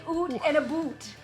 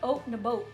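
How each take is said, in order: First: The vowel in 'out' sounds like 'oot'. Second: The vowel in 'out' sounds like 'oat'. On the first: This is a stereotype that Canadians do not actually say. The speaker calls it wrong. "Canadians do not say oot in a boot" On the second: This is how Canadians really say it. The speaker calls it right. "We say oat in a boat. It's more back in the throat"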